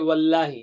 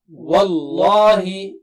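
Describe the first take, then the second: First: The L is pronounced light and thin. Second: The L is pronounced heavy and thick. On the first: The speaker calls it wrong. "Don't say wallahi" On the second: The speaker calls it right.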